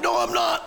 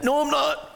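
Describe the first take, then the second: First: Said in the usual way. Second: High, indignant no I'm not; kid denial. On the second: Retold or imitated. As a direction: protest like an eleven-year-old. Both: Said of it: "having an argument".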